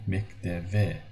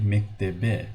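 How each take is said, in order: First: Mekteve with a V in the last syllable; mekteve, written B sounded as V; B read as V. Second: Mektebe with a hard B in the last syllable; wrong B sound. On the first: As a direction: slowly say mekteve, softening the B to V. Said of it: "we say mekteve". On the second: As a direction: slowly say mektebe, lips closed for B. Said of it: "We don't say mektebe". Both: Shown as a demonstration.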